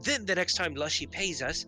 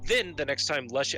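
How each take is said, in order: First: It is said in a put-on character voice. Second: It is said in the speaker's normal voice.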